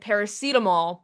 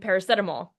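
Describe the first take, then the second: First: The word is said the English way. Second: The word is said in a non-English way. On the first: This is how people say it in England. "as they call it in England" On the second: This is how the song says it. "he says it wrong in the song"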